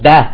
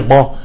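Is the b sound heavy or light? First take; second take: light; heavy. First: The b sound is light and thin. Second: The b sound is heavy and full. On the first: The speaker calls it right. "ولكن في شيء اسمه با" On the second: The speaker calls it wrong. "ما في شيء اسمه باللغة العربية با"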